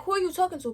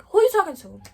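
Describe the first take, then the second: First: Higher, stressing "are" in "Who are you talking to?"; pointed repeat. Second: Louder and higher, confronting her; loud angry challenge. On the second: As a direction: bark "Who you talking to?" back at her. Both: Retold or imitated. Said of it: "I started getting fed up".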